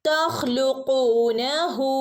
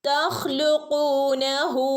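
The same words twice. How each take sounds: No difference in how they are said.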